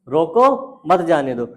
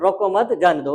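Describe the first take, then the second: First: There is a pause right after the first word. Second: There is a pause right after the second word. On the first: Stop the person; do not let them go. "रोको, मत जाने दो, मतलब रोक लो" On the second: Do not stop the person; let them go. "रोको मत, मतलब उसे रोको नहीं"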